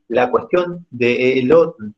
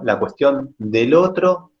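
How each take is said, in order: First: 'De' and 'el' are said as separate words. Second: 'De el' is contracted into one word, 'del'. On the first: It follows the form in the written text. "yo lo pronuncio así porque la, en el escrito mismo está separado de él" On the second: It is the usual everyday spoken form. "así que lo voy a decir del para no trabarme"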